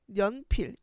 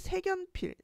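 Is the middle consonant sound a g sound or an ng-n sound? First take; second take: ng-n sound; g sound. First: The first syllable ends in ng before an n. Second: The k links over as a g sound. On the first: The speaker calls it right. "비음화가 일어나서 생연필 이렇게 발음하는 게 맞는데" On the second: The speaker calls it wrong. "색연필이라고 연음을 하게 돼"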